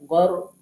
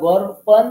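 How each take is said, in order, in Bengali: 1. শব্দটি সাধারণ 'a' স্বর দিয়ে শেষ হয়। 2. শব্দটি নাসিক্য 'an' ধ্বনি দিয়ে শেষ হয়। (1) "আমরা গর প গর প এরকম বলবো" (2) "গর পন বলবো না"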